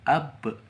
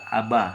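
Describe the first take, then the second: First: The word ends on a stopped, bounced consonant. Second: The word ends with an open vowel. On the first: The reader pauses on this letter. "karena kita mematikan jadi ab" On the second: The letter is read with its vowel, not stopped.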